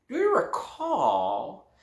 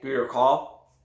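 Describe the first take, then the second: First: It is asked in a teasing, mysterious way. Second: It is asked in a plain, flat way. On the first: The question makes the listener curious to remember. The speaker calls it right. "Say something like this" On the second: The question does not make the listener curious. The speaker calls it wrong. "instead of saying"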